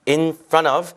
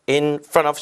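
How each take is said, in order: No difference in how they are said.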